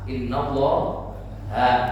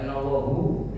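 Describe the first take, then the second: First: The final vowel is an 'a' sound. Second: The final vowel is a 'u' sound. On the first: The speaker calls it right. "kalau habis inna dibaca a a" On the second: The speaker calls it wrong. "Jadi jangan innallahu ya"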